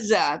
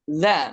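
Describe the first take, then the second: First: The consonant is a buzzing z sound. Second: The consonant is a voiced th sound. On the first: This is the Egyptian way of saying the letter. "Kalau orang Mesir iya za" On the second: This is the standard classical way of saying the letter. "lughah fushaghnya itu dza"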